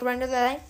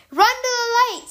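First: Said in the usual way. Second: Much higher, urgent call; shouted command. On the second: Retold or imitated. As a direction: yell the order across the distance. Rescuers shouting from far.

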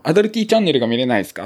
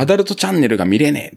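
First: アダルティ said with a clear ティ ending, quick and polite; customer service voice. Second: アダルト said normally with a plain ト ending; アダルト, rough casual customer wording. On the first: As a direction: say アダルティ not アダルト, quick polite operator tone. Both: Retold or imitated. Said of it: "アダルティって言うんですよ".

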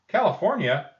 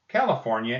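First: High, loud delighted question; surprised echo. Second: Said in the usual way. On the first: Acted. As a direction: echo it back amazed. Teacher echoes the answer, delighted.

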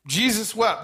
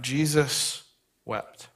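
First: "Jesus wept." lifted higher, with the weight landing on "wept"; emphatic. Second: Solemn hush. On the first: Pastor pressing the verse on the congregation, stress on "wept". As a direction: drive home "wept" as the point of the sermon. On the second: Pastor reading the verse to the church, hushed and slow. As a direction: read "Jesus wept." like a held breath at a graveside. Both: Acted. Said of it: "See, Jesus wept".

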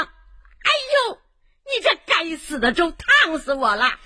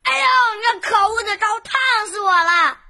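First: Sudden high ouch, then a pained complaint; mother cries out in pain; scalded yelp. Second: Ouch stressed on 呦, falling off; boy burnt by hot porridge; a touch of pained crying out; mild burnt yelp. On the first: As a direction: yelp as hot porridge burns her hand. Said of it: "粥溅到了妈妈的手上". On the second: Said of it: "烫得他大叫". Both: Acted.

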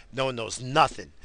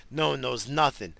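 No difference in how they are said.

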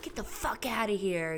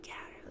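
First: What she'd want to yell. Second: Put-on hushed whisper shooing the kid away; whispering at her son during a video call. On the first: Retold or imitated. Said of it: "and I can't be like". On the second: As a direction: whisper it so the call can't hear. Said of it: "'cause I'm on video conference".

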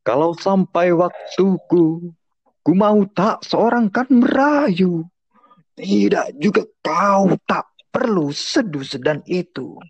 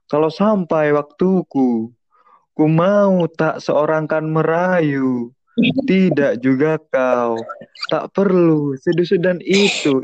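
First: Slow, rising higher and stronger then falling; vary the pitch line by line for drama; varied intonation. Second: Slow, sing-song, same tune each line; monotonous poem reading. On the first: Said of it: "lebih variatif gitu kan". (intonasi bervariasi, naik lalu turun) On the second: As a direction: drone it out, crooning and monotonous. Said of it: "itu monoton banget". (baca puisi mendayu-dayu dan monoton) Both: Shown as a demonstration.

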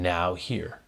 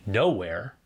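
First: "now here" as two separate words, a small gap after now; split into two words. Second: "nowhere" run together as one word, stressed on no; one smooth word "nowhere", no gap. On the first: Preacher shows the congregation "now here" split in two. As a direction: lean on "now", then a distinct "here". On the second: Preacher shows the congregation "nowhere" as one word. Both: Shown as a demonstration. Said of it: "is where we place the space between the letters".

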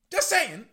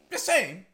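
First: Higher, louder told-you-so; smug. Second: Smug. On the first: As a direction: rub it in, louder. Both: Real, not acted.

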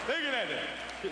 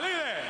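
First: Drawn out, slow; slow amazed stare. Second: Proud shout at the blaze; Uncle Gus admiring. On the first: Uncle Gus gazes at the huge fire, slow and awed. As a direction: let each word hang in awe. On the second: Uncle Gus shows off the huge grill fire, excited. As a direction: point at the fire, thrilled. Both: Retold or imitated. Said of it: "it's like".

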